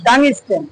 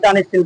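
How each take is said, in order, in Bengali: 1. এটি 'tung sten' হিসেবে উচ্চারিত হয়, মাঝখানে একটু থেমে। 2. এটি 'tan steel' হিসেবে উচ্চারিত হয়। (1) "টাং একটু থাই মার পরে পরে স্টেন" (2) "আমরা আঞ্চলিক ভাষায় বলতে বলতে টান স্টিল টান স্টিল করি"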